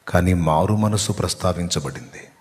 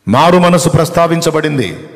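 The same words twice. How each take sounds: First: Said in the usual way. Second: High, loud, forceful declaration; ringing preacher's emphasis, falling at the end; emphatic proclamation. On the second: Real, not acted. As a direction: proclaim "మారు మనసు" with a big raised attack. Repeats the point forcefully.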